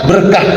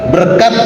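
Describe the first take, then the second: First: The word ends with an h sound. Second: The word ends with a t sound. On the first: This is the form that came from Arabic. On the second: This is the form that came through Persian. "Pakai huruf T. ... Itu dari Iran"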